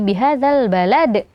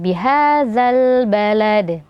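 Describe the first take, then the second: First: A glottal stop is added after the final d. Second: The final d echoes cleanly without a glottal stop. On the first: The speaker calls it wrong. "jangan sampai ada tambahan huruf hamzah setelahnya" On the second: The speaker calls it right. "tapi alami"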